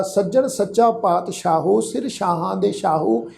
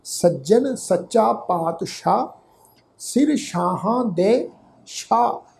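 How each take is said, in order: First: ਪਾਤਸ਼ਾਹੋ and ਸ਼ਾਹੋ with an added final o; wrong pronunciation. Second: ਪਾਤਸ਼ਾਹ and ਸ਼ਾਹ said slowly with no final o; correct recitation. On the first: Teacher shows the sangat the reading to avoid, with o endings. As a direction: read it the mistaken way, sounding ਪਾਤਸ਼ਾਹੋ and ਸ਼ਾਹੋ. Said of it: "ਇਸ ਢੰਗ ਨਾਲ ਅਸੀਂ pronounce ਨਹੀਂ ਕਰਨਾ". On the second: Teacher models the correct reading for the sangat, slow and careful. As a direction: recite ਸੱਜਣ ਸੱਚਾ ਪਾਤਸ਼ਾਹ slowly, ending clean on ਸ਼ਾਹ. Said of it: "ਇਹਦਾ ਉਚਾਰਨ ਕਰਾਂਗੇ". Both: Shown as a demonstration.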